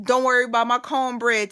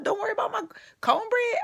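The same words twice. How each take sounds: First: "Don't worry about my cornbread" said tough and plain; hardcore. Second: "don't worry about my cornbread" squeaked high and scared; mock frightened squeak. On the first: Retold or imitated. Recalling acting hardcore in jail, tough attitude. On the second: Mocking her own tough line with a frightened high squeak. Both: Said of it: "I went from hardcore".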